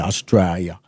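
It is said with careful, clear articulation.

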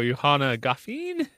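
The voice rises like a question. The speaker sounds unsure, so people know he's wrong. The speaker calls it wrong. "not with a question mark at the end"

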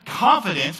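The word is said boldly, with strong confident force.

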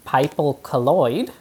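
It is said in a put-on Tasmanian accent.

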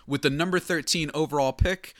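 It is said in a formal commissioner announcer voice.

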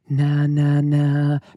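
The voice sounds thin, soft and light. The speaker calls it wrong. "they're going to be very, very light. So they might go"

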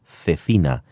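The word is said in a Castilian accent. "with my Castilian accent, I could say"

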